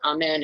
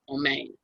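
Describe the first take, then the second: First: The first vowel sounds like 'ah'. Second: The first vowel sounds like 'oh'. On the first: It sounds like ordinary church usage. The speaker calls it wrong. "it's not Amen. It wasn't like going to Sunday school" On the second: It sounds older and more authentic. The speaker calls it right. "It was going to someplace real, Omain"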